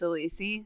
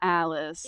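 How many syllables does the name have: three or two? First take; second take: three; two. First: The name is said with three syllables. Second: The name is said with two syllables. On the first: The speaker calls it right. "say it's Alisi" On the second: The speaker calls it wrong. "it's not Alice"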